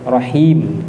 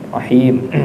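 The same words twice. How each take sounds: Both takes have the same delivery.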